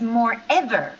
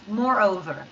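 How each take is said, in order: First: The second part sounds like 'ever'. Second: The second part sounds like 'over'. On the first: The speaker calls it wrong. "I hear your pronunciation is more ever" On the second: The speaker calls it right. "So we say more and over, like two words"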